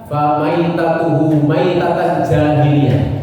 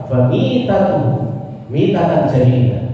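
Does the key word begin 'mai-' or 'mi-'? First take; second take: mai-; mi-. First: The key word is said with 'mai-', as maitatan. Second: The key word is said with 'mi-', as mitatan. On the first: It means dying an unbeliever's death. The speaker calls it wrong. "Orang N D I bacanya gitu" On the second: It means dying in the manner of pre-Islamic times. The speaker calls it right. "Harusnya apa?"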